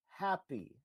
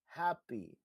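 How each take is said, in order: No difference in how they are said.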